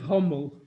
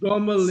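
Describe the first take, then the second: First: The word begins with an H sound. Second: The word begins with a hard G sound. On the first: "instead of Hommel" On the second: "Gommel instead of Hommel"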